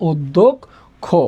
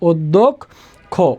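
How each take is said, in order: First: The word ends with an 'o' vowel. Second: The word ends with an 'o' vowel.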